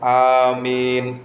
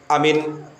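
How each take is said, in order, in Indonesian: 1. Kedua vokal dibaca panjang. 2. Kedua vokal dibaca pendek. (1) "alifnya dibaca panjang, mimnya dibaca panjang" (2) "alifnya sama mimnya itu dibaca pendek"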